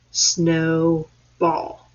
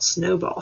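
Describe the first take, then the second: First: "Snowball" split slowly into snow, ball; syllable by syllable. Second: Said in the usual way. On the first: Shown as a demonstration. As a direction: pause clearly between the two halves of "Snowball". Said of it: "How many syllables". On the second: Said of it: "Count out snowball".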